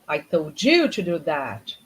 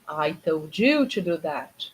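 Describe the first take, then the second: No difference in how they are said.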